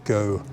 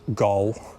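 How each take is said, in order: First: The O vowel is lighter, not deep. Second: The O vowel is too deep. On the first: The speaker calls it right. "the correct sound is O" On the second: The speaker calls it wrong. "use a sound that is too deep"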